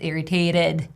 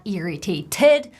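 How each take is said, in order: First: The middle T is a quick flapped D. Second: The middle T is a clear, crisp T. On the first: The speaker calls it right. "Flap D, ... this T is placed in between two vowel sounds. It's irritated" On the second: The speaker calls it wrong. "not irritated"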